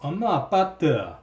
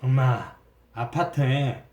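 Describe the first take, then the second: First: It is said in a Gyeongsang dialect accent. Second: It is said in a Jeolla dialect accent. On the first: "경상도 사투리로는" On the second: "전라도 사투리로는"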